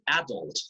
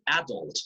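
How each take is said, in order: First: The word uses a British stress pattern. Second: The same.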